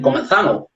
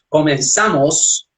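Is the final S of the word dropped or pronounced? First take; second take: dropped; pronounced. First: The final S sound is dropped. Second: The final S sound is clearly pronounced. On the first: "no pronunciar las letras S en los finales" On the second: "como decir"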